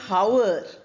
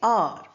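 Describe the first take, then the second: First: The word begins with an h sound. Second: The word begins without any h sound. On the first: The speaker calls it wrong. "We don't say hour" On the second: The speaker calls it right. "we say R"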